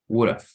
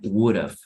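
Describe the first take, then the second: First: The two words are run together as would've. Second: Both words are said fully and separately. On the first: "Like this, would have" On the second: "would have has a contraction"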